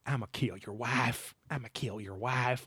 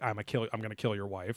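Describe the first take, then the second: First: Quiet, slow Southern drawl, ghostly and far off; Southern drawl EVP. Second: Said in the usual way. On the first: Retold or imitated. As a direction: murmur it like a Southern ghost on tape. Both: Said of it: "another Southern drawl E V P".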